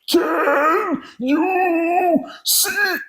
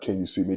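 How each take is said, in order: First: It is said with strain and difficulty. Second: It is said easily, in a normal voice.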